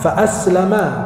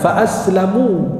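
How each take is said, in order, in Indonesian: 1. Vokal akhirnya bunyi 'a'. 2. Vokal akhirnya bunyi 'u'. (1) "Kalau pakai fathah" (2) "pakai dhammah"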